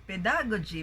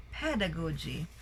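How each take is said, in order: First: "pedagogy" with the stress moved to DA; wrong stress. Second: "pedagogy" with PED stressed, tailing off softer; first-syllable stress. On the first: Teacher showing what it's not, "pedagogy" stressed on DA. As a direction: punch the second syllable, pe-DA-gogy, in "pedagogy". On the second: Teacher correcting the stress, "pedagogy" stressed on PED. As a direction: stress PED in "pedagogy", let the rest fall. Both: Shown as a demonstration. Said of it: "it's not pedagogy".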